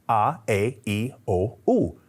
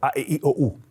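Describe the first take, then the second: First: The vowels are said slowly, one by one. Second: The vowels are said quickly in a row.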